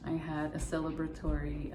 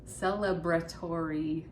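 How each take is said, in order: First: Said in the usual way. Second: Deliberate repeat. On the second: Real, not acted. Repeats the word more deliberately.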